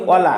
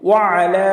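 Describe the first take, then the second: First: ওয়ালা run together with a লাম sound; wrong joined ওয়ালা. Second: ওয়া আলা with a clear throat আইন before আলা; separate ain. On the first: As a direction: blur it into ওয়ালা, the mistake. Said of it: "ওয়ালা বললে আমাদের ভুল হবে". (ভুল করে ওয়ালা) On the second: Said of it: "আইনের উচ্চারণ করতে হবে". (আইন স্পষ্ট করে ওয়া আলা) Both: Shown as a demonstration.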